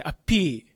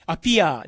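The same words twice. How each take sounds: First: Appear as "a-pii", no final "a"; long final vowel. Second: Appear said as "a-pi-a"; katakana ending. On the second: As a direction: add a clear "a" to the end of "appear". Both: Shown as a demonstration. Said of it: "じゃなくて".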